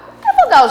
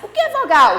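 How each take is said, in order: First: "é" mais agudo e marcado; ênfase em "é". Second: Rindo, pergunta o que é vogal. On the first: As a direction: sobe o tom em "é" para chamar a turma. (pergunta repetida com ênfase em "é") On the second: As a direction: pergunta leve com riso. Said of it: "O que é vogal, gente?". (pergunta com um riso) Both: Shown as a demonstration.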